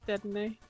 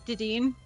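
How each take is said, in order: First: The first syllable sounds like 'deh'. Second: The first syllable sounds like 'dee'. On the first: The speaker calls it right. "but it's Dedenne" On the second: The speaker calls it wrong. "I mispronounced uh Dedenne"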